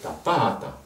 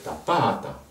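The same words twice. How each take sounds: First: The stress is on the middle syllable. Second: The same.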